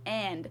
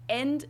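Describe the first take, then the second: First: And with an open English A. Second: And said with E, like end; German E sound. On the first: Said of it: "instead of and". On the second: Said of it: "replace some of them with the German sound". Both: Shown as a demonstration.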